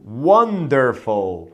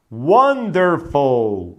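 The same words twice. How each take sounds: First: "wonderful" again drawn out slowly; slow careful pronunciation. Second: "Wonderful" drawn out very slowly; slow careful pronunciation. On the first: Teacher repeats "wonderful" very slowly. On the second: Teacher stretches "Wonderful" slowly for students. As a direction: stretch every syllable of "Wonderful". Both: Shown as a demonstration. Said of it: "Olha essa aqui a pronúncia".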